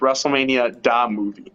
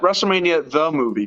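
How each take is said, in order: First: The word 'the' begins with a 'd' sound. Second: The word 'the' begins with a 'th' sound. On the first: The speaker calls it right. "It's WrestleMania da movie. That's that's an important distinction here" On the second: The speaker calls it wrong. "not WrestleMania the movie"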